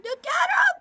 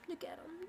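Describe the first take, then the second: First: High, loud delighted squeal; excited squeal. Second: Hushed, fond look at him; soft murmur. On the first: Gushing over her dog's YouTube debut, squealing. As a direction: squeal over a cute pet. Showing off the dog. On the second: Showing the dog to the camera, hushed and fond. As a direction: say it almost under the breath. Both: Real, not acted.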